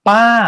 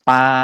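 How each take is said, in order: First: The pitch goes higher. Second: The pitch stays level at a middle height. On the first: "ต้นที่สามเสียงสูงขึ้น" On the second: "ต้นแรกเนี่ย,คำว่าปลาใช่ไหมครับ"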